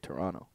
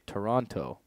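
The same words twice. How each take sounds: First: The second T is dropped. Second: The second T is clearly pronounced. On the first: This is how Canadians say it. "Canadians don't say the second T. We say Toronto" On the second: This is how Americans say it. "Americans say Toronto"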